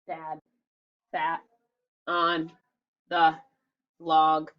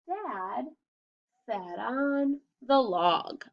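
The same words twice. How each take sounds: First: Each word is said separately, like a robot. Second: It is read smoothly in phrases.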